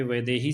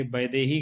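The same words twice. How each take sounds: First: वैदेही said with a v sound, vaidehi; the correct वैदेही; correct pronunciation. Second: वैदेही said with a b sound, baidehi; वैदेही starting with b instead of v; the common wrong वैदेही; wrong pronunciation. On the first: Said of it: "सही है". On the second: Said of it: "गलत है". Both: Shown as a demonstration.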